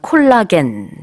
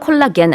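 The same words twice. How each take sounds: First: The word is said with Korean loanword pronunciation. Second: The word is said with English pronunciation. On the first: The speaker calls it wrong. "영어로는 콜라겐 아니고" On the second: The speaker calls it right. "콜라겐이라고 합니다"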